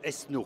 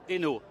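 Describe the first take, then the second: First: The name is said with an S sound. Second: The name is said without an S sound. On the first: This is how people in the East say it. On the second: This is the speaker's own way of saying it.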